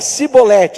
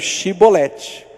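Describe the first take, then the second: First: The word begins with an s sound. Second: The word begins with an sh sound. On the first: "fala cibolete" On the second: "tudo que tinha S falava Xi"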